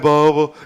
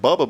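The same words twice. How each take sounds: First: It is said in a Southern Texan drawl. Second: It is said in a plain, neutral accent. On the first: "you say it with that East Tech" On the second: "I say like Bubba"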